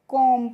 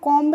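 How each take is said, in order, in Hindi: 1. यह शब्द m पर खत्म होता है, इसमें b की आवाज़ नहीं होती। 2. इस शब्द के अंत में b की आवाज़ साफ़ सुनाई देती है। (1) "कॉम पढ़ते हैं। ... साइलेंट होती है" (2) "सी ओ एम बी को हम कॉम्ब नहीं पढ़ते हैं"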